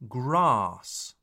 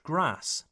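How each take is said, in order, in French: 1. La voyelle A est longue. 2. La voyelle A est courte. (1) "The A sound is long" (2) "not grass"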